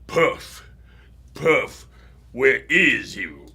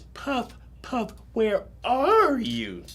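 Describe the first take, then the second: First: It is said in a deep, changed voice. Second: It is said in a soft, patient voice.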